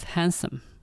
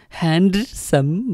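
First: The d sound in the middle is silent. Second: The d sound in the middle is pronounced. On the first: The speaker calls it right. "ဒီအသံဟာ silent ဖြစ်ပါတယ်" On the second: The speaker calls it wrong. "Handsome မဆိုပါဘူး"

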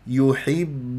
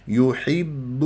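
No difference in how they are said.

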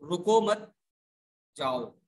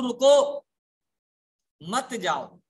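First: The pause comes after मत, before जाओ. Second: The pause comes after रुको, before मत.

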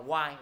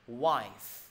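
First: The word ends without any final f sound. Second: The word ends with a clear final f sound. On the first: The speaker calls it wrong. "Chứ mọi người đọc là Y. Y là gì?" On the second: The speaker calls it right. "Gọi là wife"

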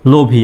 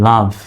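First: It is said as two syllables ending in ee. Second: It is said as one syllable ending in v. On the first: The speaker calls it wrong. "LOVE লোভী, এরকম কি হবে? লোভী না" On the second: The speaker calls it right. "সঠিক উচ্চারণটা হবে LOVE লাভ"

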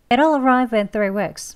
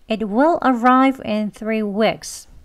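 First: The sentence is spoken quickly with words run together. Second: The sentence is spoken slowly and carefully. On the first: "조금 빨리 합니다" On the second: "천천히 느린 발음으로"

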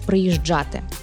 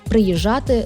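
First: The middle consonant is a full 'dzh' sound. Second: The middle consonant is a plain 'zh' sound. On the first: The speaker calls it right. "замість «приїжджати»" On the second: The speaker calls it wrong. "заміна «дж» і «дз» на «ж» і «з». Наприклад, «приїжджати» замість"

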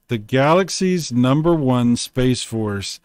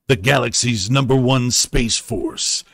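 First: It is read in an ordinary speaking voice. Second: It is read in a dramatic movie-trailer voice.

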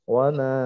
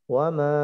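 Both takes have the same delivery.

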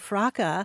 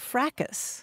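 First: The final S sound is silent. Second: The final S sound is pronounced. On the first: This is the British pronunciation. "In Britain, yes, they say fraca" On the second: This is the American pronunciation. "Also in this country, you can say fracas"

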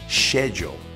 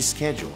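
First: It is pronounced the British way. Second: It is pronounced the non-British way. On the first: "Mais ainda no Reino Unido, muita gente fala schedule" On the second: "ao invés de schedule"

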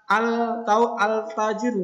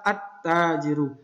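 First: The l sound is pronounced before the t. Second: The l merges into a doubled t sound. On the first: The speaker calls it wrong. "di sini enggak ada al-tajiru, enggak bisa" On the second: The speaker calls it right. "Ini karena huruf syamsiyah maka at-tajiru"

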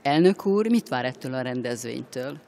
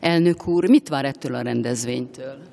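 First: The question is spoken at normal volume. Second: The question is spoken a bit louder.

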